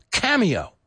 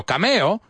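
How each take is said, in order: First: Cameo as KAM-ee-oh, stress first; English pronunciation. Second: Cameo said Spanish-style as kah-MEH-oh; wrong Spanish reading. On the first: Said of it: "See? Confusing". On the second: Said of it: "there's another Latin word". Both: Shown as a demonstration.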